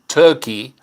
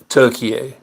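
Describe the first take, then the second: First: It is said the English way, like the bird. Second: It is said the Turkish way, like Türkiye. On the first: This is the name long used in English. "the country we've always called Turkey" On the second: This is the country's official original name. "which you're hearing me pronounce this differently"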